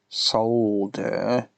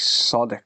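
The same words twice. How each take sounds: First: The L sound is clearly pronounced. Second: The L sound is left out. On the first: The speaker calls it right. "the proper way, with the L in the pronunciation" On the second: The speaker calls it wrong. "None of this solder crap"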